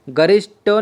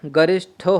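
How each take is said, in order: First: गरिष्ठो with unaspirated ṭ, garishto; wrong form. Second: गरिष्ठो with a breathy-released ṭh, garishtho; correct aspiration. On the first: Teacher showing the mistake, गरिष्ठो with a hard unaspirated ṭ. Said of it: "नहीं होता है". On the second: Teacher correcting the word, गरिष्ठो with aspirated ṭh. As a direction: puff air on the ठ of गरिष्ठो. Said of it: "होता है". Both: Shown as a demonstration.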